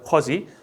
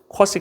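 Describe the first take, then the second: First: The middle consonant is a voiced z sound. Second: The middle consonant is a voiceless s sound. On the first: "쿼지라고 발음하기도 합니다" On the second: "보통 쿼시 컴플리먼트라고 보통 발음들을 하셨는데"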